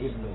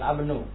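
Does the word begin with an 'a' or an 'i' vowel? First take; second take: i; a. First: The word begins with an 'i' vowel. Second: The word begins with an 'a' vowel. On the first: The speaker calls it right. "tapi ibnu" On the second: The speaker calls it wrong. "bukan abnu"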